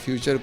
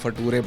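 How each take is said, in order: First: The middle consonant is a 'ch' sound. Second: The middle consonant is a 't' sound. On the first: The speaker calls it right. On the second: The speaker calls it wrong.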